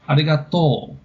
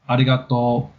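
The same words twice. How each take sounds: First: The pitch falls on the last syllable. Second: The pitch stays level on the last syllable. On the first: This is how it is said in Osaka. "the one from Osaka goes down on the last syllable" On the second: This is how it is said in Tokyo. "And the one in Tokyo would be"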